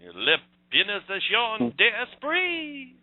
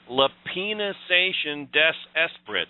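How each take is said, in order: First: It is said with a French accent. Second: It is said with an English accent. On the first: The speaker calls it right. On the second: The speaker calls it wrong.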